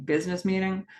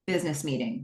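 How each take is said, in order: First: "Business meeting" lifted as a question; "meeting" left hanging, doubtful of the term; questioning repeat. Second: Said in the usual way. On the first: Real, not acted. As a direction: query the words "Business meeting", pitch held up. Questions the term just used.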